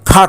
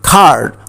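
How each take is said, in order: First: The vowel is cut short. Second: The vowel is held long. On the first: The speaker calls it wrong. "খাট বললে চলবে না" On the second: The speaker calls it right. "এখানে আমি long sound উচ্চারণ করেছি এটা হচ্ছে খার্ট"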